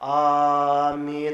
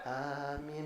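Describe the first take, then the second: First: It is said loudly, like the men. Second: It is said softly, like the women.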